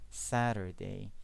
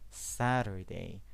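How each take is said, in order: First: The middle T is a quick flap, like D. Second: The same.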